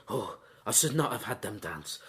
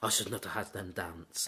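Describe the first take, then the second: First: Low, soft, rueful sigh of a line; regretful lament. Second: Repeated even lower and softer, almost to himself; quieter echo. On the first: Vladimir regretting the dance, in a low, soft lament. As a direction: mourn the mistake quietly, voice dropped well down. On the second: Vladimir repeating his regret, fading to a low murmur. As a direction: let the regret fade into a murmur. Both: Retold or imitated. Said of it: "Vladimir actually says".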